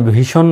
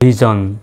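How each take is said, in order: First: The middle consonant is a voiceless 'sh' sound. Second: The middle consonant is a voiced 'zh' sound. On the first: The speaker calls it wrong. "ভীষণ না বলে" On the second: The speaker calls it right. "বলবেন ভিজন"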